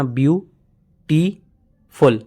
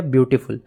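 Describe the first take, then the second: First: beautiful very slowly as view... टी... फुल; beautiful pulled apart into three separate beats; syllable by syllable. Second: Said in the usual way. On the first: Shown as a demonstration. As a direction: leave a long gap between each syllable of beautiful. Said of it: "बीच में जो दो stop आया ना". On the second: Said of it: "एक ही बार में नहीं कह रहे हैं".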